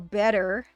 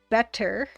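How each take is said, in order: First: The middle consonant is said softly and mushily. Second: The middle consonant is said crisply and clearly. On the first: This is how the speaker's own accent says it. The speaker calls it wrong. "Or better, get better" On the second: This is how it is supposed to be said. The speaker calls it right. "when it should be better"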